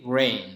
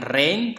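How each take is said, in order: First: "rain" with a rounded English r, almost wrain; correct w-like R. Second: "rain" with a hard Indonesian r, no w colour; wrong R. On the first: Teacher correcting learners' r, w-like English R. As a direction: ease into "rain" through a w sound. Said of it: "seolah-olah ada bunyi W-nya". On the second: Teacher showing the mistake to avoid, Indonesian R. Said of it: "Bukan rain". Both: Shown as a demonstration.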